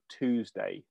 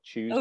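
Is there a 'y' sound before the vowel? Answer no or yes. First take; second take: no; yes. First: The vowel is a plain 'oo' sound. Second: The vowel is a 'yoo' sound. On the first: "The Americans say Tuesday. Like, double O rather than a U" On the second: "not Tuesday"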